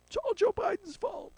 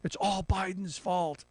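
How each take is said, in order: First: Much higher, whiny mock voice; mocking squeal. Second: Said in the usual way. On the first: Host mocking Republicans in a high whiny voice. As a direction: squeak it like a whining critic. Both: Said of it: "Republicans are saying".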